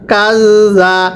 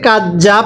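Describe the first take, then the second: First: The middle consonant is soft, tongue at the teeth. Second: The middle consonant is a hard j sound. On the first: The speaker calls it right. "জালটা নরম করে পড়তে হবে" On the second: The speaker calls it wrong. "এটাকে কাজ যা পড়া যাবে না"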